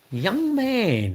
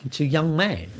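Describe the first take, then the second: First: Put-on young man pitched high, falling off; mock high young man. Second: Said in the usual way. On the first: Shown as a demonstration. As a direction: hit young man way up high then let it drop. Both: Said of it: "not like that".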